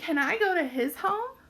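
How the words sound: It is said as an asking question.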